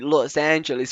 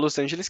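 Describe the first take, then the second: First: It is said with an English pronunciation. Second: It is said with a Brazilian Portuguese pronunciation. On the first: "ouvir o nome Los Angeles ficaria muito mais natural" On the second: "com um sotaque de- do português mesmo, do brasileiro"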